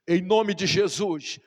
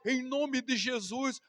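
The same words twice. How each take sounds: First: It is said in a firm, commanding tone. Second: It is said in a whining, pleading tone. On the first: It is an order that must be obeyed. The speaker calls it right. "Isso não é um pedido, é uma exigência, é uma ordem" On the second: It is a request begging for help. The speaker calls it wrong. "Em vez de você ficar orando"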